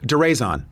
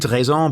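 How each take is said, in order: First: The name is said with an English pronunciation. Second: The name is said with a French pronunciation. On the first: "It's Deraison" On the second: "I'm sure there's a more French way"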